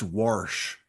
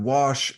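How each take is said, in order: First: The word is said with an R sound. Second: The word is said without an R sound.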